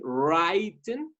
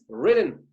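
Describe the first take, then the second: First: The first vowel is wide open, like a long i. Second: The first vowel is short and closed. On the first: The speaker calls it wrong. "don't open it so much like written" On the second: The speaker calls it right. "Close it like this"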